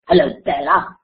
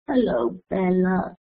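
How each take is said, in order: First: The greeting is said in an angry voice. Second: The greeting is said in a sad voice. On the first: "You can say it as if you're angry" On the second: "they say it as if you're sad"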